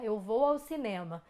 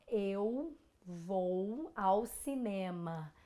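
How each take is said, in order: First: The sentence is spoken at a normal pace. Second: The sentence is spoken slowly and carefully.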